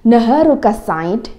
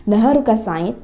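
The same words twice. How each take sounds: First: Naharuka Said said slowly and a bit louder, rising at the end; careful teacher demo of Naharuka Said; slow model phrase. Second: Said in the usual way. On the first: Shown as a demonstration. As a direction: model Naharuka Said clearly for the class.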